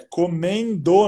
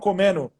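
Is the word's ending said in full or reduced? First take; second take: full; reduced. First: The word ending is pronounced in full. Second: The word ending is shortened and reduced. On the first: The speaker calls it right. "É comendo" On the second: The speaker calls it wrong. "não comendo"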